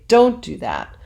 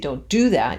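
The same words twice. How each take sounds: First: The stress falls on the word don't. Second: The stress falls on the word do. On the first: The speaker calls it right. "you say" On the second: The speaker calls it wrong. "You wouldn't say"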